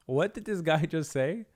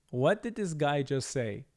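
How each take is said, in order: Both takes have the same delivery.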